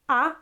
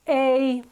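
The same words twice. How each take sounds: First: The vowel is short and crisp. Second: The vowel is dragged out and long. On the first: The speaker calls it right. "keep them short, keep them crisp" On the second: The speaker calls it wrong. "you're dragging it out"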